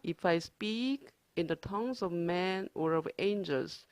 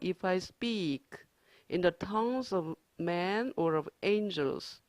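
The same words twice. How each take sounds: First: The sentence is read at a faster pace. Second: The sentence is read at a slower pace.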